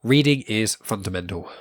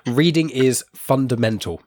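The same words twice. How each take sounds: First: Stuffy blocked-nose voice. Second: Said in the usual way. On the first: Real, not acted. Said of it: "my nose is blocked up". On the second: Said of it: "There we go".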